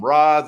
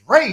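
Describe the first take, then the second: First: The name sounds like the word 'rods'. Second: The name does not sound like 'rods'. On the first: The speaker calls it wrong. "they was calling them rods, and the shit was annoying the fuck out of me" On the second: The speaker calls it right. "I was like, it's Ra's"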